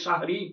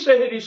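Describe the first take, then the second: First: The first syllable has an 'a' vowel. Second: The first syllable has an 'e' vowel. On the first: It names the pre-dawn meal of the fast. The speaker calls it right. "শব্দটি হবে সাহরি" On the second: It suggests a word meaning magic or falsehood. The speaker calls it wrong. "সব মানুষ সেহরি সেহরি শব্দটা উচ্চারণ করি, অথচ সেহরি শব্দটা অত্যন্ত আপত্তিকর"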